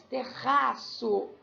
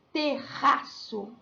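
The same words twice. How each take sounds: First: Terraço said very slowly, the RR held strong; slow double R demo. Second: Terraço said slowly, the double R drawn out strong; strong double R demo. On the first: Teacher repeats the example for pupils, very slow. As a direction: spell out terraço slowly so the RR sounds. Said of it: "som forte". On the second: Teacher shows pupils the strong double R, slow. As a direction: stretch terraço so the RR stands out. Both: Shown as a demonstration.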